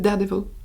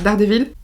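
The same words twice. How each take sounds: First: It is said with an English pronunciation. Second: It is said with a French pronunciation. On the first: The speaker calls it right. "je pense que c'est Daredevil" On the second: The speaker calls it wrong. "c'est la prononciation française à laquelle j'ai l'habitude"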